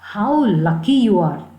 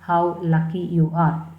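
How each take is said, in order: First: It is said with excitement. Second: It is said flatly, without excitement.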